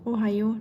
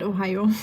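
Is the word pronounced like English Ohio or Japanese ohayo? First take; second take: Japanese ohayo; English Ohio. First: It is pronounced like the Japanese greeting ohayo. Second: It is pronounced like the English place name Ohio. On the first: It is a morning greeting. The speaker calls it right. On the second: It names a place. The speaker calls it wrong.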